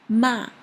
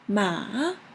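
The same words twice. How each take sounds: First: The pitch falls sharply like a strong no. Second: The pitch dips low like a drawn-out well. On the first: "The last one is a very strong no sound" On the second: "The third one is well, well"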